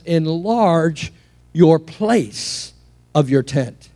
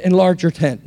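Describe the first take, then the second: First: Slow, with place clearly weighted; stress on place. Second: Said in the usual way. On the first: Shown as a demonstration. Preacher correcting the misquote, stressing place slowly. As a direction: lean on the word place, drawn out. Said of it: "No, it says". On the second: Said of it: "heard it prophesied wrong, misquoted".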